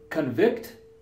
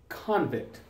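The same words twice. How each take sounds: First: It has the verb pronunciation. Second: It has the noun pronunciation. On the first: It names an action. "The verb" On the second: It names a person. "And the noun"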